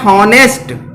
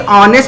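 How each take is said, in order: First: The word starts with an audible h sound. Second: The word starts with a vowel, no h. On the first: The speaker calls it wrong. "वो कह रहा है हॉनेस्ट" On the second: The speaker calls it right. "अगर कोई ऑनेस्ट नहीं कह रहा है"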